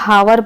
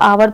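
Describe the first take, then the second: First: The word begins with an h sound. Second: The word begins with a vowel sound. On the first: The speaker calls it wrong. "बहुत लोग हावर पढ़ते हैं, बिल्कुल गलत" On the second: The speaker calls it right. "इसको आवर पढ़ा जाता है"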